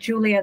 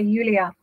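First: The name is said with an English pronunciation. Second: The name is said with a Dutch pronunciation. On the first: "instead of saying Julia" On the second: "I did live in the Netherlands for a while where they... say Julia"

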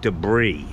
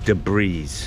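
First: The word ends without any S sound. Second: The word ends with an audible S sound. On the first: The speaker calls it right. "The S is silent" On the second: The speaker calls it wrong. "he pronounces the S"

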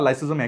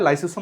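First: The middle consonant is a z sound. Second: The middle consonant is an s sound. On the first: "অনেকে এটাকে লাইসোজোম উচ্চারণ করে, ওটাও ভুল না" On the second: "দুরকম করে উচ্চারণ করা হয়"

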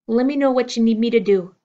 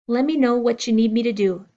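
No difference in how they are said.

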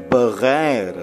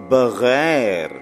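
Both takes have the same delivery.

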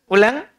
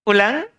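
Both takes have the same delivery.

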